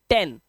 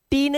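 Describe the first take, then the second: First: टेन with a short "e", like English "ten"; short E sound. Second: टीन with a long "ee", pitched up; wrong long-vowel reading. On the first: Teacher gives students the correct reading, टेन with short "e". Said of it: "ए का sound है". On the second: Teacher warns students off this reading, टीन with long "ee". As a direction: say टीन stretched as "teen". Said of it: "टीन नहीं पढ़ेंगे". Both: Shown as a demonstration.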